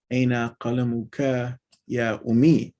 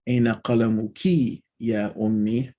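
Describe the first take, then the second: First: "قلمك" as qalamuka, ending in "kah"; masculine ending KA. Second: "قلمك" as qalamuki, ending in "kee"; feminine ending KI. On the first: Teacher reading the uncorrected example aloud, "قلمك" as qalamuka. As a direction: say "قلمك" with a final "kah" before "يا أمي". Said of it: "This is supposed to be". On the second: Teacher reading the corrected example to mother, "قلمك" as qalamuki. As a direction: say "قلمك" with a final "kee" before "يا أمي". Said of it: "I need to change that". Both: Shown as a demonstration.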